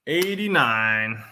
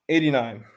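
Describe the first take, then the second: First: "Eighty-nine" drawn out slowly, as an announcement; raffle caller. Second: Said in the usual way. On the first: Shown as a demonstration.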